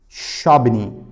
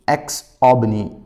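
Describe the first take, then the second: First: The name begins with a 'sh' sound. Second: The name begins with an 'eks' sound.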